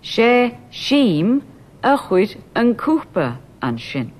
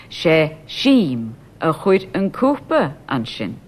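First: "Sheem" lifted higher with a rise; stress on Sheem. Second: "Sheem" said slowly and clearly, whole line slow; slow demo. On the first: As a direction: lift "Sheem" up, rest level. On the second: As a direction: spell it out slowly for learners. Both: Shown as a demonstration. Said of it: "Sheem is brought forward".

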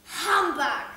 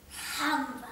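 First: A louder, harsher "Humbug!" spat out; loud scornful "Humbug!". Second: Said in the usual way. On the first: Acted. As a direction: bark the word in disgust.

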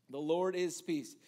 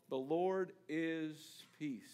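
First: Said in the usual way. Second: Very slow "The Lord is Peace"; slow and weighty. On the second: Shown as a demonstration. Preacher naming the altar, slow and weighty. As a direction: let each word land slowly.

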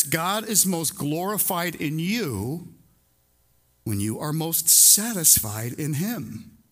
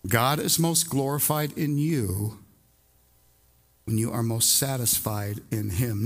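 First: Slow, weighted "most glorified" and "most satisfied"; solemn slow creed; slow emphatic statement. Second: Softened repetition, falling to a hush; slower, softer repeat. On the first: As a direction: lay each word down slowly for the people. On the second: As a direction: stress on "most", dropping low on "him". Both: Shown as a demonstration. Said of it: "What we have been saying is this".

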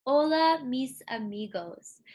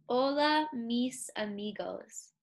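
First: Spanish demo of Hola, mis amigos; Spanish greeting. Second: Whole phrase put back together; all together. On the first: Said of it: "to say Hello, my friends in Spanish, it is". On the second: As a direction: join the parts back up. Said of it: "And all together". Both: Shown as a demonstration.

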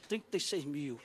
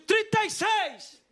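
First: Low, soft, sobered voice; acted quiet shock; stunned sum. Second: High, slow auction yell; acted all-out bid shout; drawn-out winning bid. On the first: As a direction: repeat the amount as it sinks in. Realising what he has spent. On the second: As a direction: holler it out, refusing to lose. Shouted final bid, later subdued.

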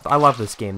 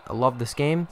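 First: Said in the usual way. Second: Sarcastic. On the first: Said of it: "I love it". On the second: Real, not acted.

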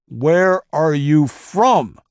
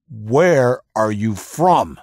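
First: Slow, much higher, louder bellowed question; interrogator's savage drawn-out scream; furious scream. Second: Slow, louder, higher scream into his face; drawn-out interrogator scream. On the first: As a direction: tear the answer out of him. Interrogator repeats during torture. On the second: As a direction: bellow the question at the prisoner. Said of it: "he screamed into the moaning man's face". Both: Acted.

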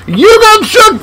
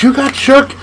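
First: Sing-song gamer gloat; excited taunt. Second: Said in the usual way. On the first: Real, not acted. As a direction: crow it at the opponent. Taunting the opponent.

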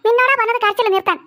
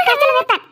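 First: Said in the usual way. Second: Scolding yell. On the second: Acted. Mother repeats order, louder.

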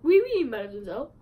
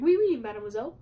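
First: Light mock French accent, lifting at the end; playful French accent on the greeting. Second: Light mock French accent, lifting at the end; half-hearted French accent. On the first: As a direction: Timon putting on a hint of French. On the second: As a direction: repeat the greeting in a playful French accent. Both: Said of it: "like a French accent".

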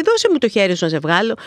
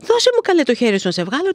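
First: Said in the usual way. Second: High, loud start, then dropping back; exasperated retold urging; insistent plea. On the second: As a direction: act out pleading with someone who won't listen. Repeats offer, he ignores it.

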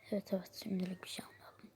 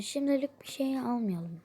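First: Soft, hurried echo; quiet agreement. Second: Said in the usual way. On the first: Acted. Companion echoing the answer given to the waiter, quiet quick agreement. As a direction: agree quickly and much more softly.

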